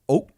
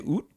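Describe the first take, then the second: First: The name ends in a stop between t and k. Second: The name ends with a clear t sound. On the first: This is how it is said in Cambodia. "in Cambodia it's pronounced oak. It's like between a T and a K" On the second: This is how it is said in Vietnam. "in Vietnam they say oot"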